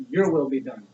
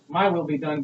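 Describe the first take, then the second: First: "your" as the stressed word. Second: "my" as the stressed word. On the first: Pastor yielding to God, stressing "your". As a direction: lean on "your", then let it fall. Contrasts God's will with own. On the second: Pastor praying to God, stressing "my". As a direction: lean on "my", against "your". Contrasts own will with God's. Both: Acted.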